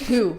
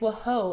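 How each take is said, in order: First: The word is said as one syllable. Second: The word is sounded out as two syllables. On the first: This is the normal, irregular pronunciation. The speaker calls it right. "And I was like, ah" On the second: A child sounded the word out letter by letter. The speaker calls it wrong. "he was like"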